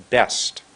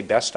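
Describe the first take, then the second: First: "best" with the vowel held long; a long, set-up "best"; lengthened word. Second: Said in the usual way. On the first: Shown as a demonstration. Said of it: "I was making my words longer". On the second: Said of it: "I didn't say best".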